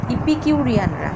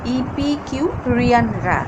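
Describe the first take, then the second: First: Said in the usual way. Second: ইপিকিউ রিয়ান রা slow, with gaps between the parts; broken into parts. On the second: Shown as a demonstration. Teacher breaking up a hard name for students, ইপিকিউ রিয়ান রা slowly in parts. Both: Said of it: "উচ্চারণটা আমরা ভেঙে ভেঙে পড়ব".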